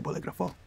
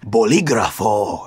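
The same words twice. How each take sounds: First: It is said plainly without an overdone accent. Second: It is said with an overdone Spanish accent. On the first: The speaker is saying it naturally. The speaker calls it right. "relax, and you just say" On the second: The speaker is trying too hard to sound authentic. The speaker calls it wrong. "when you're in Spanish class and you are like"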